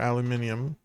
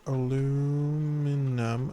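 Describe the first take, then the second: First: The word is said with five syllables. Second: The word is said with four syllables. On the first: This is how other people say it. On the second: This is the speaker's own usual form.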